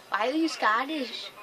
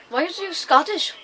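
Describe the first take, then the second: First: Said in the usual way. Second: Loud, high mock-Scottish question; attempted Scottish accent. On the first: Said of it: "I can't do a Scottish accent". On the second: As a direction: ask it loudly in your best amateur Scottish. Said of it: "That is my best Scottish".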